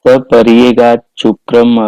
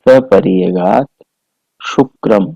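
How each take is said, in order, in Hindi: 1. शब्द 'cch' ध्वनि के साथ जुड़े हैं। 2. शब्द 't' और 'sh' ध्वनि के साथ अलग हैं।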